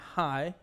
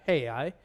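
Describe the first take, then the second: First: It is said as one gliding syllable. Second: It is said as two separate syllables. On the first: The speaker calls it right. "It's hoy and hi" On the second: The speaker calls it wrong. "not hey I"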